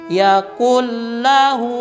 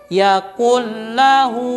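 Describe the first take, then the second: Both takes have the same delivery.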